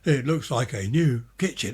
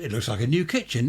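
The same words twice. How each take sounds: First: It is said in a stiff, overacted advert manner. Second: It is said casually, like normal pleased conversation. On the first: An actor reading an advert script. The speaker calls it wrong. "Not, ... It's the way they speak. ... they can't act" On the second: A real person reacting to their own kitchen. The speaker calls it right. "I'd say, oh, well, that's different"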